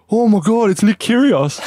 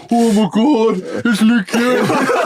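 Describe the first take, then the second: First: High, excited mock fan cry; starstruck fans. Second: High mock gushing, stretched out at the end; mimicking starstruck fans. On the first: Couple spot tennis star leaving a car, mock starstruck squeal. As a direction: imitate fans gushing at a celebrity. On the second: Tipsy player echoes fans back at them, mocking squeal. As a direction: parody a starstruck fan, drawing out the name.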